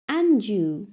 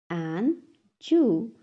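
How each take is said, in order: First: Said in the usual way. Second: "And Jew" as two separate beats; syllable by syllable. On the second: Shown as a demonstration. Teacher has class repeat, "And Jew" broken in two. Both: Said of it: "टू syllables में divide".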